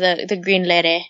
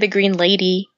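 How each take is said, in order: First: It is said in a Hawaiian pidgin accent. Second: It is said in a standard mainland accent. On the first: "That's just the accent" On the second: "We don't say the Green Lady"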